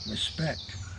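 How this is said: It is said very quietly and downcast.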